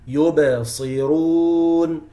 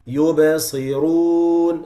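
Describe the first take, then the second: The two takes are said the same way.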